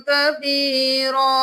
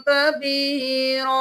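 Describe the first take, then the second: No difference in how they are said.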